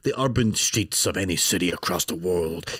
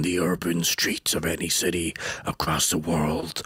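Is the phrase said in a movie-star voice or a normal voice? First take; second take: normal; movie-star. First: It is said in the speaker's ordinary voice. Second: It is said in a dramatic movie-star voice.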